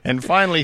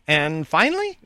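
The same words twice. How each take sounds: First: The voice does not rise at the end. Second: The voice rises at the end, like a question.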